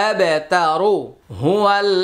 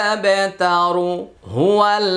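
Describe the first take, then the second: No difference in how they are said.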